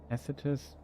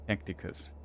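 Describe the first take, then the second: First: The name has no 'k' sound before the 't'. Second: The name has a 'k' sound before the 't'. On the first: The speaker calls it right. "how it's pronounced" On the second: The speaker calls it wrong. "I always read tac- Tacticus"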